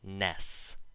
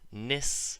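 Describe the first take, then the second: First: The vowel is a short 'e' sound. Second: The vowel is a short 'i' sound. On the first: The speaker calls it wrong. "not ness" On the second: The speaker calls it right. "should sound like nis, like an I"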